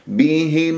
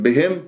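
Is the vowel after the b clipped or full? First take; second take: full; clipped. First: The vowel after b is full and clear. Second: The vowel after b is clipped short. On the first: The speaker calls it right. "لا بهم ميم مظهرة" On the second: The speaker calls it wrong. "ما أختلسها"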